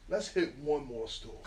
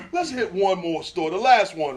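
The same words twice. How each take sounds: First: Slow, softer, laughing through the words. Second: Said in the usual way. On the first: Retold or imitated. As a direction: chuckle at your own dumb idea. Retelling the fateful dumb decision.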